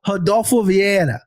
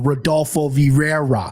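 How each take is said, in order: First: It is said with a Brazilian Portuguese accent. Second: It is said with a Midwestern American accent. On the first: The speaker calls it right. "beautiful Brazilian not, Portuguese right there" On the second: The speaker calls it wrong. "my Midwest ass would go"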